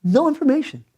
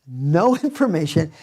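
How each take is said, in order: First: "No information" with NO punched high and hard; stress on NO. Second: "No information" repeated with a real laugh breaking into it. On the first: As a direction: hit the word "No" up high, then drop on "information". Pastor stressing lack of news. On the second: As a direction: chuckle right through "No information". Pastor repeats line laughing. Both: Real, not acted.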